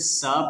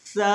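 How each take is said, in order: First: The first sound is a plain hissing s. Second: The first sound is a soft th. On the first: The speaker calls it wrong. "सीन की आवाज़ में अगर इसको सा पढ़ेंगे तो गलत होगा" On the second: The speaker calls it right. "ज़ुबान को दोनों दांतों के दरमियान लाएंगे"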